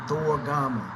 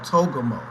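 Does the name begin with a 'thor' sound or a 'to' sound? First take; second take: thor; to. First: The name begins with a 'thor' sound. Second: The name begins with a plain 'to' sound. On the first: The speaker calls it right. "the L X X is calling him" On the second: The speaker calls it wrong. "that's how I pr- pronounce it, and that must be just an awful pronunciation"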